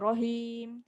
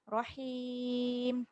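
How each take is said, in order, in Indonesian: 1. Suku kata pertama berat, dengan vokal bulat. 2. Suku kata pertama ringan, dengan vokal ringan. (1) "jangan rohim, salah" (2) "ha nipiskan"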